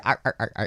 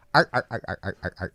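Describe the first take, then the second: First: Quick mock "arr, arr, arr" brush-off; imitating a busy wife's quick brush-off; wife's dismissive noise. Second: Clipped mock "arr, arr, arr" brush-off; wife's dismissive noise. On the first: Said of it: "she'll be". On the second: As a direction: imitate a busy wife acknowledging a pun. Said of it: "it's a noise she makes if she's busy".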